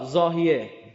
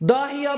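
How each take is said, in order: First: The name begins with a z sound. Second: The name begins with a d sound. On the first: This is the local rendering of the name. "این ز و انگلیسی د تلفظ میکنن" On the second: This is the English rendering of the name. "داهیا به انگلیسی"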